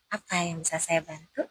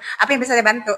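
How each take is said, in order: First: It is spoken softly and gently. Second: It is spoken loudly and harshly. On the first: The speaker calms an angry patient. The speaker calls it right. "Intonasinya agak dipelankan" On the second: The speaker may provoke an angry patient. The speaker calls it wrong. "Beda dengan"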